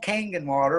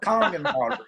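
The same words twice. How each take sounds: First: The first syllable does not sound like 'kong'. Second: The first syllable sounds like 'kong'. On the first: The speaker calls it wrong. "It's not called Kangen water" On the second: The speaker calls it right. "It's called Kangen water"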